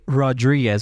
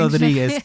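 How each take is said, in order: First: The name is said with an English accent. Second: The name is said with a Spanish accent. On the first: "hard for me to say Rodriguez without wanting to put my Spanish inflection" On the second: "Say it with a Spanish inflection"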